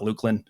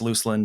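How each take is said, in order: First: The middle consonant is a k sound. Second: The middle consonant is an s sound. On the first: The speaker calls it wrong. "not Lukelin" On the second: The speaker calls it right. "It's Lucelyn"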